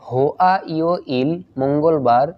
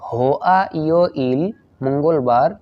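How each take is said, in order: No difference in how they are said.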